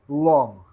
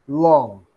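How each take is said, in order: The two takes are said the same way.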